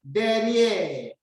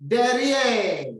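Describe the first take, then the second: First: "Derrière" repeated with an open è; French pronunciation. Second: "Derrière" with an open è and a rolled r; teacher reading "Derrière" aloud; French pronunciation. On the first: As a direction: model "Derrière" again for the class. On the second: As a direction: say "Derrière" clearly, stressing the end. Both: Shown as a demonstration. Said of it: "Look at the words".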